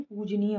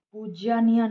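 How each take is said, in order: First: पूजनीय said "poojaneey"; correct form. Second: पूज्यनीय said "poojyaneey"; पूज्यनीय with an extra ya; wrong form. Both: Shown as a demonstration. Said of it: "पूजनीय होता है".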